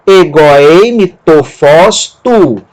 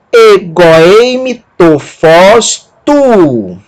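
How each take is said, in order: First: Egoeime tofós tu slow but joined up; smoother Greek reading. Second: Egoeime tofós tu spoken very slowly, syllable by syllable; slow Greek demo. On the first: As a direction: read Egoeime tofós tu as one phrase, still careful. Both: Shown as a demonstration. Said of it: "a pronúncia dessa palavra".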